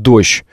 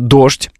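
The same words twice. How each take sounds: First: The end of the word is softened. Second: The end of the word is hard, not softened. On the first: This is how Moscow speakers say it. "москвичи смягчают и говорят" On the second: This is how Petersburg speakers say it. "питерцы должны говорить"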